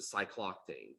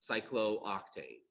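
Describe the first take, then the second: First: The two o vowels merge into one. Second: Both o vowels are sounded separately. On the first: "as opposed to" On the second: "I would pronounce both those"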